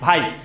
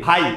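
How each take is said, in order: First: The vowels glide together into one syllable. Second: The same.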